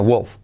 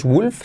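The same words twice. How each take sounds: First: Wolf with a u close to o, low; correct vowel. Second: Wolf as "wulf", with a pure u; wrong vowel. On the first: Teacher correcting learners, wolf with an o-like u. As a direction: say wolf with the vowel opened toward O. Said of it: "con una U como O". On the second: Teacher showing what not to say, wolf as "wulf". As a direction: say wolf with a tight Spanish U. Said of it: "no es wolf". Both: Shown as a demonstration.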